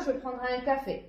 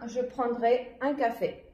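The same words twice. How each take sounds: First: It is read at a faster pace. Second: It is read at a slower pace.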